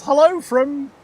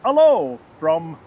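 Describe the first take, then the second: First: Attempted French greeting. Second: Slow, hammed-up French accent on hello from; a half-hearted French accent, stretched and slow; mock French accent. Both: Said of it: "how to say that in a French accent".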